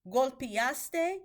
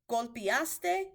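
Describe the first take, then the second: The two takes are said the same way.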